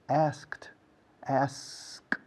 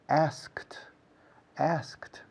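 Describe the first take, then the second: The two takes are said the same way.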